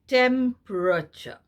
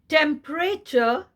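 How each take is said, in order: First: The unstressed vowel is reduced to a schwa. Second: The unstressed vowel is said full, without schwa. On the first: The speaker calls it right. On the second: The speaker calls it wrong.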